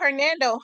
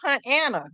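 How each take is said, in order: First: The name is said with an r sound. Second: The name is said without an r sound. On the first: The speaker calls it right. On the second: The speaker calls it wrong.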